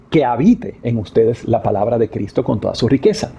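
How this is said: The stress is on "que".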